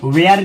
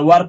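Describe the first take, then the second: First: The vowel sounds like the one in 'air'. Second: The vowel sounds like the one in 'fur'. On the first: The speaker calls it wrong. "वेयर नहीं पढ़ा जाता है" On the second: The speaker calls it right. "वर पढ़ा जाता है"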